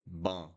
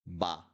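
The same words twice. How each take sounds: First: "Ban" with a nasal vowel; nasal syllable drill. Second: Crisp open "Ba"; syllable drill. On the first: Teacher contrasting nasal "Ban" with "Ba". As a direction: let "Ban" ring through the nose. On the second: Teacher drilling the syllable "Ba". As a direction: sound out "Ba" cleanly. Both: Shown as a demonstration. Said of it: "how would you pronounce this".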